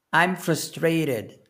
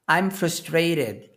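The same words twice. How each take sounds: The two takes are said the same way.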